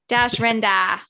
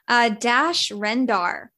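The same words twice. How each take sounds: First: It is said in a put-on Boston accent. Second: It is said in a plain, ordinary accent.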